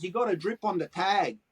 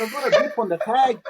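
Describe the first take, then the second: First: Said in the usual way. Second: Incredulous echo. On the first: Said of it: "he goes". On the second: Retold or imitated. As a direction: repeat "got" back in disbelief, louder and higher. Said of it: "I said".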